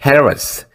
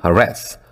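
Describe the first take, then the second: First: The stress is on the first syllable. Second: The stress is on the second syllable. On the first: "앞에를 읽을 때는" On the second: "액센트를 뒤에 읽을 때는"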